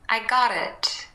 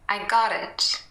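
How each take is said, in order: First: The T is a light flap joining the words. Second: The same.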